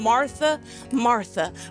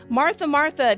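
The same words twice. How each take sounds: First: It sounds gentle and tender. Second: It sounds stern and scolding.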